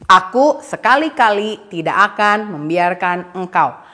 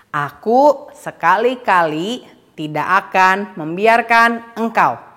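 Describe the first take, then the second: First: The sentence is said at a faster pace. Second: The sentence is said at a slower pace.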